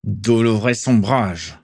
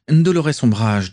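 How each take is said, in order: First: Slow, tight, exasperated correction; through clenched teeth. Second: Higher, drawn-out name, pleased to have it; airy recall. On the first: Father corrects his muddled son, through clenched teeth. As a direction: squeeze the name out between the teeth. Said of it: "dit Abraxas Malfoy entre ses dents". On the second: Son repeats the name his father supplied, airily. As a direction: pick the thread back up breezily. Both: A narrator's reading.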